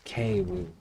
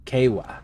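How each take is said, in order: First: "Kewu" tried out low and soft; trying a pronunciation. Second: "Kewa" as KAY-wah, falling at the end; practising a pronunciation. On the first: Streamer sounds out a game name, tentative "Kewu" ending in oo. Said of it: "Is that how you say that?". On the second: Streamer rehearses a name to remember it, deliberate "Kewa" ending in ah. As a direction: say "Kewa" as two clear syllables, KAY-wah. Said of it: "I gotta say that a few times". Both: Shown as a demonstration.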